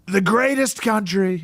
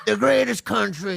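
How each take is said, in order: First: Slow, throaty Trump rally voice; Trump impression. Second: Lightly voiced Trump, back of throat; a hint of Trump rally voice; Trump impression. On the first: Shown as a demonstration. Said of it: "the easiest way to do Trump is". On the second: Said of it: "A little bit".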